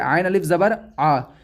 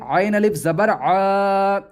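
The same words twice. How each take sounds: First: The final vowel is short, not drawn out. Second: The final vowel is long and drawn out. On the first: The speaker calls it wrong. "इसको हम ऐसा नहीं पढ़ेंगे" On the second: The speaker calls it right. "बल्कि इसको खींचेंगे"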